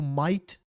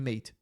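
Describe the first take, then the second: First: It is said with an Australian accent. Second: It is said with a standard accent.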